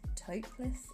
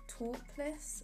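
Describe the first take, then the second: First: It is said in an American accent. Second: It is said in a British accent.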